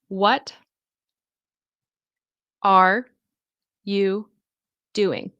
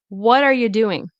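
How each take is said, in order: First: Each word is said fully and separately. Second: The words blend together with reduced sounds. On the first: "these words" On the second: "But when English speakers say it, they'll say"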